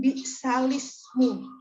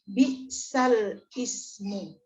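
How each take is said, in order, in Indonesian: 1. Kata-katanya disambung tanpa jeda. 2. Kata-katanya dipisah dengan jeda. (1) "dibunyikan bi'salismu" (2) "Banyak juga orang yang membaca"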